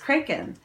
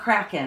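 First: The first syllable rhymes with 'break'. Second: The first syllable does not rhyme with 'break'. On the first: The speaker calls it right. "but it's Kraken. We're breaking" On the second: The speaker calls it wrong. "It's not Kraken"

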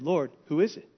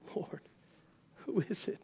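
First: The question is asked in a calm, collected voice. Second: The question is asked in a shaken, disturbed voice. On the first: The asker is composed and untroubled. The speaker calls it wrong. "don't think calm, cool, and collected" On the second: The asker is deeply disturbed. The speaker calls it right. "No, John's shaken"

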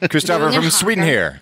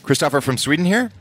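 First: The voice falls at the end like a statement. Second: The voice rises at the end like a question. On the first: It is a plain statement. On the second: It is asked as a question.

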